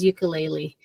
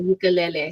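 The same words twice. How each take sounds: First: It uses a mainland American pronunciation. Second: It uses a Hawaiian pronunciation. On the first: "the mainland pronunciation is" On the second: "the Hawaiian say"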